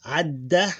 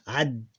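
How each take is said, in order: First: Said in the usual way. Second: Ad ending on a held double d, no vowel after it; final vowel dropped. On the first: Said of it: "Adda become ad". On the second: Shown as a demonstration. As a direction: cut the vowel off ad and hold the d. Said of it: "It become ad".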